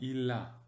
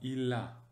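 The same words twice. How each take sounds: First: The two words are linked smoothly together. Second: The same.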